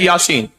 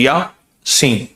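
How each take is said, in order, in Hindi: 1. 'ya' के बाद कोई विराम नहीं है। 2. 'ya' के बाद हल्का सा विराम है।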